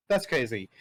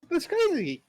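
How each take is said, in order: First: Said in the usual way. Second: High, slow, laughing "That's crazy"; stretched, giggly "That's crazy"; laughing disbelief. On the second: Real, not acted. Laughing at his own loss.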